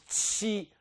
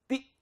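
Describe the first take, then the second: First: The t is followed by a hissing ch sound. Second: The t is a clean stop without hissing. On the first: "como se fosse um X" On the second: "nós não falamos ti"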